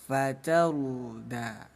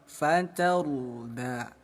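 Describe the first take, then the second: The two takes are said the same way.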